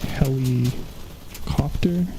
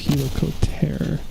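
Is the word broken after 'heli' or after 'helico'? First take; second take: after heli; after helico. First: The word is split after heli. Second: The word is split after helico. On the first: The speaker calls it wrong. "it's not helicopter" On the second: The speaker calls it right. "it's helicopter, which is rotating wings"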